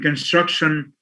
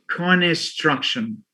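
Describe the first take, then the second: First: The consonant cluster is said with no added vowel. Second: An extra vowel breaks up the consonant cluster. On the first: The speaker calls it right. "instead of saying construction" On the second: The speaker calls it wrong. "the cluster is is broken, and that's something against the the phonological rules of English"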